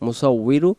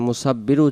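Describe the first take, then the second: First: The doubled middle consonant sounds like w. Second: The doubled middle consonant sounds like b. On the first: The speaker calls it right. "উচ্চারণ হবে মুসাউবিরু ওয়াউজের উই" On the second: The speaker calls it wrong. "মুসাব্বিরু উচ্চারণ হবে না"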